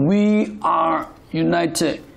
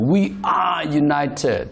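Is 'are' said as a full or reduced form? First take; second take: reduced; full. First: The word 'are' is said in its reduced form. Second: The word 'are' is said in its full form. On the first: This suits ordinary everyday speech. "တာမန်ပြောရင်" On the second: This suits a formal ceremonial speech. "was တို့ are တို့ပြောတယ်"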